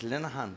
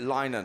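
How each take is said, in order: First: The name is said as 'Linehan', not 'linen'. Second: The name is said like the word 'linen'. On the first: The speaker calls it right. "so it's Linehan" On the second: The speaker calls it wrong. "I pronounced it Linen"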